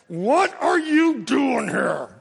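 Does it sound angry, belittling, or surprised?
angry. It sounds angry.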